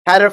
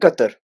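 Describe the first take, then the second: First: It is said with an American pronunciation. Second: It is said with an Arabic pronunciation. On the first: "Qatar for the Americans" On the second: "in Arabic"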